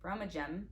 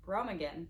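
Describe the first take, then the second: First: Brummagem ending in jem; corrected brummagem. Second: Brummagem said with a hard g, ROH-muh-gem; first try at brummagem. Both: Shown as a demonstration. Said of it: "there you go".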